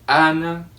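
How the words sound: The first vowel is said the Spanish way. The speaker calls it right. "É somente A de casa, A de Ana"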